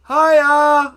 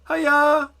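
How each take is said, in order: First: It is called out louder, with more energy. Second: It is called out with less energy.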